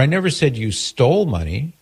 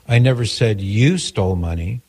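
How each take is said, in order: First: The stress is on the word stole. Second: The stress is on the word you.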